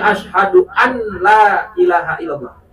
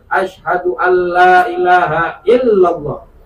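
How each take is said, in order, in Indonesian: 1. Bunyi n diucapkan jelas sebelum l. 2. Bunyi n menyatu ke bunyi l setelahnya. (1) "nggak kena, nggak masuk" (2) "idgham izharnya kudu jelas di sini"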